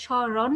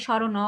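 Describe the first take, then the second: First: স্মরণ ending on a closed n, "sho-ron"; stopped final consonant. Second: স্মরণ drawn to "sho-ro-no"; final vowel added. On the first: Teacher showing where you stop, স্মরণ said "shoron". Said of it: "তুমি যখন থামো". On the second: Teacher asking the class, স্মরণ said "shorono". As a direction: add an open "o" after the n of স্মরণ. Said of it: "নাকি স্মরণ বলো?". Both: Shown as a demonstration.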